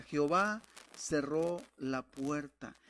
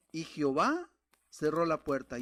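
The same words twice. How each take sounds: First: "Jehová cerró la puerta" drawn out slowly, each word weighted; slow, deliberate stress on "Jehová cerró la puerta"; slow emphatic repeat. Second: "Jehová" and "cerró la puerta" punched out louder; louder stress on "cerró la puerta"; emphasis on the last phrase. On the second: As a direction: hit "Jehová cerró la puerta" hard and loud. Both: Shown as a demonstration. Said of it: "Y hacemos énfasis en la última frase".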